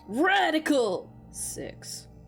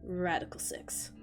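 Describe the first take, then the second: First: It is said in a put-on character voice. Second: It is said in the reader's natural voice. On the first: The speaker calls it right. "There we go" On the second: The speaker calls it wrong. "you didn't say it in his voice"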